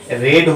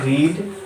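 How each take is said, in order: First: The vowel is a short e sound. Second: The vowel is a long ee sound. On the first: It is the past form. "रीड का उच्चारण past form में रेड होता है" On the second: It is the present or base form. "एक और example लेते हैं रीड"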